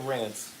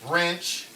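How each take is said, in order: First: It sounds like 'rinse', standard style. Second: It sounds like 'wrench', Baltimore style. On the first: "They don't say rinse" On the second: "That's how they say it in Baltimore"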